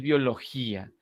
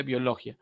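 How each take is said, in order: First: Biología with the í stressed and split off, bio-lo-GÍ-a; biología in four syllables, í then a; correct pronunciation. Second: Biología run together as bjo-lo-XJA, the final ia one syllable; biología said with the i gliding into a; wrong version: biología with no stress on the í; without the written accent. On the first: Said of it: "Necesito acentuar la I". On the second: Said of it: "la palabra no es biología". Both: Shown as a demonstration.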